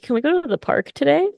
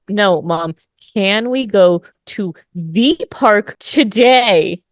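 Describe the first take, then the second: First: It is said at normal speed. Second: It is said slowly with careful enunciation.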